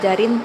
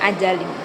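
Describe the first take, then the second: First: The middle consonant is an R sound. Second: The middle consonant is an L sound. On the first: The speaker calls it right. "Seharusnya dia mengucapkan kata ajarin" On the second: The speaker calls it wrong. "tapi dia malah mengucapkan kata ajalin"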